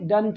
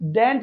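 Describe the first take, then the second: First: The vowel is a short 'uh' sound. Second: The vowel is a clear 'eh' sound. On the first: The speaker calls it right. "डंट होगा" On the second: The speaker calls it wrong. "डेंट नहीं"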